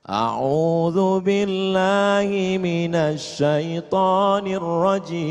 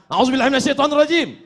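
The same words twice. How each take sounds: First: It is said in a calm tone. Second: It is said in an angry tone.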